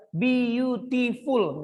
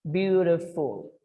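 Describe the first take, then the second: First: "beautiful" very slow, as bi-yu-ti-ful; wrong syllable split. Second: "Beautiful" slowly as byu-ri-ful; correct syllable split. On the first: Teacher warns against saying "beautiful" in four parts, wrong syllable split. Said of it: "Jangan ada bilang". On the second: Teacher shows "Beautiful" as three syllables, correct syllable split. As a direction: say "Beautiful" in three slow parts, tapped t. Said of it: "Three syllables". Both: Shown as a demonstration.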